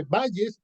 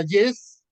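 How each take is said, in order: First: "Valles" stressed VA-lles; stress on first syllable. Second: "Vallés" stressed va-LLÉS; loud, clear end stress on "Vallés"; stress on last syllable. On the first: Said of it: "Porque es como valle en singular". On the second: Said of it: "es con tilde". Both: Shown as a demonstration.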